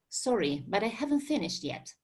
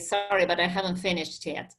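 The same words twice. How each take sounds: First: It is said in a polite, neutral tone. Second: It is said in a rude, unkind tone.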